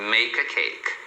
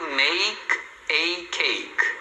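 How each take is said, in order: First: The words run together with a reduced vowel. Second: Each word is said separately and with emphasis. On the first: "Na fala normal, o A vai ter um som de A, que é o som reduzido, e aí ele vai sempre emendar" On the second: "que a pessoa está pronunciando separado, enfático"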